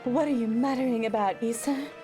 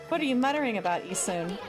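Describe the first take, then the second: First: It is read in a put-on character voice. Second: It is read in the speaker's ordinary voice. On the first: The speaker calls it right. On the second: The speaker calls it wrong.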